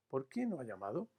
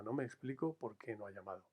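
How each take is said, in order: First: ¿Por qué no ha llamado? with a rising question tune on llamado; direct question tune. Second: Said in the usual way. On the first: Shown as a demonstration. Teacher turning the indirect question into a direct one, rising question tune. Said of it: "con los signos de interrogación". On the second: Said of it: "Todas ellas efectivamente son interrogativas indirectas".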